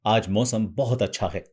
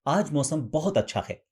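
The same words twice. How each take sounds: First: Slightly heavier, weightier take on the line. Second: A touch lighter, feminine take on the line; slightly feminine. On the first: Voice coach demonstrating the line in a slightly heavier tone. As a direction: lean the line a little heavier. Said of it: "अब इसे भारी करेंगे". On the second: Voice coach showing the same line a little more feminine. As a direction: ease the line toward a feminine tone. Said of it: "अब इसे थोड़ा सा feminine करेंगे". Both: Shown as a demonstration.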